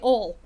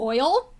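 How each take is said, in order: First: The word is clipped to sound like 'ol'. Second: The word has the full standard 'oil' vowel. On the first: "I say ol" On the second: "Instead of"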